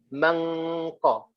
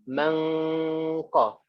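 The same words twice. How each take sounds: No difference in how they are said.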